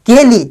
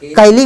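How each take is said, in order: First: केली with a pure "kay" first syllable, not "kai"; correct long e. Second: कैली said with "kai" as the first syllable; the mispronounced कैली, "kai-lee"; wrong diphthong. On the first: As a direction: say केली as two clear beats, के-ली. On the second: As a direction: open the vowel of कैली to "ka-i". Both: Shown as a demonstration. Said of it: "कैली भी मत बोलना".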